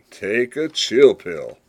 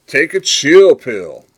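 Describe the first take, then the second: First: Said in the usual way. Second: Loud slow "Take a chill pill", "chill" stressed; slow slang demo. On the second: Shown as a demonstration. Podcaster showing the slang, slow and loud. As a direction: drawl "Take a chill pill" slowly and loudly, leaning on "chill". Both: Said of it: "you're telling somebody to calm down".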